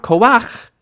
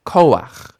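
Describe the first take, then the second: First: "koach" with the last syllable high and loud; ko-AKH, rising onto the ending; misplaced stress. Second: "koach" with the weight on KO, falling; KO-akh, strong first syllable, ending drops; corrected stress. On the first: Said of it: "not koach". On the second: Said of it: "but koach". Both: Shown as a demonstration.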